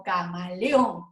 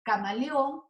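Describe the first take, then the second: First: Camaleón slowed, final ÓN leaned on; stress on final syllable. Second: Said in the usual way. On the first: Shown as a demonstration. Teacher showing the accent at the end, final syllable stressed. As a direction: draw out camaleón, landing on the last syllable. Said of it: "se acentúa porque es aguda y está al final".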